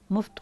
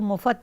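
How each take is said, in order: First: It is said as one syllable, muft. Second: It is said as two syllables, mufat. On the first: This is the standard form. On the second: This is how Bhopalis say it.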